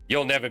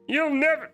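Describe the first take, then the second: First: It is said in the speaker's ordinary voice. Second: It is said in a put-on cartoon character voice. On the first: "I'm not using my my Plankton voice" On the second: "No, that's Kermit"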